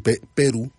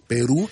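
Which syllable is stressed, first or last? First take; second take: first; last. First: The stress is on the first syllable. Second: The stress is on the last syllable. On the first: "Sans accent" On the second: "Pérou avec l'accent, hein, la syllabe"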